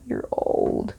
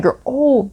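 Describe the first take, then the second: First: Whispered aside. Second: Said in the usual way. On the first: Real, not acted. Repeats jab as aside. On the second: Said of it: "You're old. (repeated whispered)".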